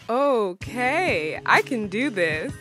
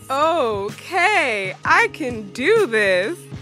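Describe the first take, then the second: First: It is said plainly, without exaggeration. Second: It is said in an over-the-top, exaggerated way.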